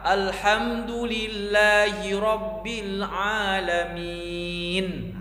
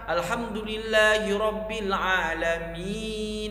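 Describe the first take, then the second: First: The final word ends on a bare consonant. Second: The final word ends with a vowel sound. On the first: The reader stops at this word. The speaker calls it right. "alamin kita berhenti di alamin" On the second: The reader does not stop at this word. The speaker calls it wrong. "tidak kita baca"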